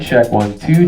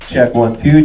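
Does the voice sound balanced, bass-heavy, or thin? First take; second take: thin; bass-heavy. First: The voice has very little low end. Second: The voice has heavy low-end bass. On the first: "you won't hear much bass through my voice" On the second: "Then you'll hear a lot more bass in my voice"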